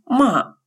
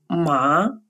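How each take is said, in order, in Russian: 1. Тон резко падает от высокого к низкому. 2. Тон поднимается от среднего к высокому. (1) "с четвертым тоном «ма» означает «ругать»" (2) "со вторым тоном «ма» – это конопля"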